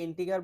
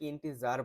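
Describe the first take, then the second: First: The middle consonant is a hard g sound. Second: The middle consonant is a soft j sound. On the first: "অনেকে ইন্টিগার বলে" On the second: "অনেকে ইন্টিজার বলে"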